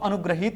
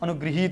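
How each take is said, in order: First: The middle syllable is said as 'gra'. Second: The middle syllable is said as 'gri'. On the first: The speaker calls it wrong. "अनुग्रहित नहीं होता" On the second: The speaker calls it right. "बल्कि क्या होता है, अनुग्रहित होता है"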